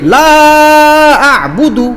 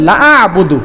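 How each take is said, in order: First: The first vowel is drawn out long. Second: The first vowel is kept short. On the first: I do not worship what you worship. The speaker calls it right. "লা এখানে টান আছে তিন আলিফ" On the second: I worship what you worship. The speaker calls it wrong. "টান না দিয়ে পড়লেন লা আ'বুদু, কোনো টান নাই"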